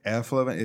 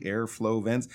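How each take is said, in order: First: "Airflow vents" quick and mushy, syllables run together; mushy imitation of "Airflow vents", sounds swallowed; blended into two syllables. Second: "Airflow vents" with all three syllables distinct; clearly separated syllables in "Airflow vents". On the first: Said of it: "sounded almost like two syllables". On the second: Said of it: "two syllables instead of three". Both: Shown as a demonstration.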